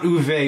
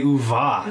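First: The name ends in an 'eh' vowel. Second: The name ends in an 'ah' vowel. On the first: The speaker calls it wrong. "Not Uve" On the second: The speaker calls it right.

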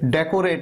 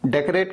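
First: The second syllable has a full o vowel. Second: The second syllable has a short uh vowel. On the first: The speaker calls it wrong. "डेकोरेट नहीं, को नहीं" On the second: The speaker calls it right. "क क अ का sound आता है"

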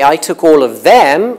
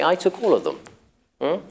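First: The word 'them' carries strong emphasis. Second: The word 'them' carries no special emphasis. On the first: The things taken are being singled out. "you're highlighting them" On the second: Nothing in particular is being singled out. "If you don't want to highlight anything"

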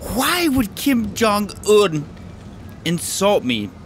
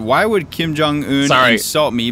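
First: It is read in an imitated, put-on voice. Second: It is read in the speaker's normal voice.

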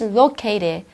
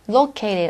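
First: The T in located is hard. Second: The T in located is a soft flap. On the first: The speaker calls it wrong. "가 아니라" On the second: The speaker calls it right. "이렇게"

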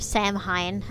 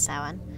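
First: It is pronounced just as it is spelled. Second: It is pronounced differently from its spelling. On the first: The speaker calls it wrong. "as it looks like it's set, like, pronounced" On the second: The speaker calls it right. "that's not actually how you say it, it's Samhain"

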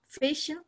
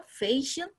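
First: It is said relaxed, with little mouth movement. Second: The first syllable is stretched and stressed.

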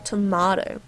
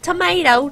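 First: The middle vowel sounds like 'ah' in 'father'. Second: The middle vowel sounds like 'ay' in 'day'. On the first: This is how the speaker's own country says it. The speaker calls it right. "We call it tomato sauce" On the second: This is how Americans say it. The speaker calls it wrong. "Not tomato"

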